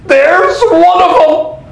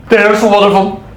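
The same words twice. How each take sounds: First: "There's one of 'em" high and drawn out; dramatic exclamation. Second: Said in the usual way. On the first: Acted. Robin staring at the butler, "There's one of 'em" in slow, high exclamation. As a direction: stretch "There's one of 'em" slowly, pitched up.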